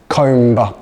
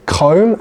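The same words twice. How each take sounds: First: The word ends with a b sound. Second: The word ends without a b sound. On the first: The speaker calls it wrong. "not comb" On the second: The speaker calls it right. "The B is silent"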